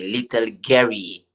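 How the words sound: The name is said in a French accent. "in French they say"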